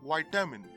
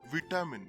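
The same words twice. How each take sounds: First: The first i sounds like 'eye'. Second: The first i sounds like 'ee'. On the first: "in the American format, the I is pronounced in this word as it is" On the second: "the British format pronounces the I as E"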